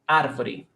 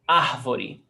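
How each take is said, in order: First: The R is rolled with the tongue. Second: The R is breathy, like an h sound. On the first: This is how it is said in the city of São Paulo. "One from the capital of São Paulo is ar. They roll the tongue" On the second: This is how it is said in the speaker's home region. "where I come from, we do the aspiration"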